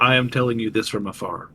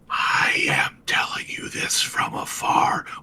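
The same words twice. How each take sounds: First: It is said in a normal voice. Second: It is said in a whisper.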